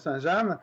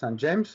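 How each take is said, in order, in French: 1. Le nom se prononce avec des sons français. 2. Le nom se prononce avec des sons anglais. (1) "je défends la prononciation" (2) "qu'ici on prononce"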